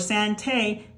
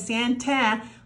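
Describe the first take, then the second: First: The final vowel is a long 'ay' sound. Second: The final vowel is an open 'ah' sound. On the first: "it's not saying a" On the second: "the A is not saying ah"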